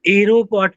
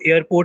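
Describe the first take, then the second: First: It begins with a single 'aero' sound. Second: It begins with a single 'air' sound. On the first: "आप इसको एरोपोर्ट भी नहीं पढ़ोगे कि आप एरो बोलो" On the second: "आप इसको एयरपोर्ट नहीं पढ़ोगे"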